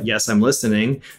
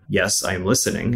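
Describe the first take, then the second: First: The voice sounds natural and humanlike. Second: The voice sounds flat and robotic. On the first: "like a normal, American English speaker would reply" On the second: "It's not going to say"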